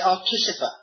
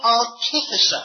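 First: The word is said quickly and less clearly. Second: The word is said slowly and carefully. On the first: The speaker calls it wrong. "otherwise I would say artificer" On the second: The speaker calls it right. "I have to say it slowly"

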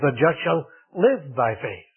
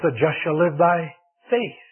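First: The word "live" carries the main stress. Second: The word "faith" carries the main stress. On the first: The focus is on how the righteous live. "he put the emphasis on the life" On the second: The focus is on what the righteous live by. "puts the emphasis on the faith"

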